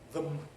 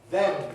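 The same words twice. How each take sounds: First: The word has a reduced, weak vowel. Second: The word has a full, strong vowel. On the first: "weak form" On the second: "strong form"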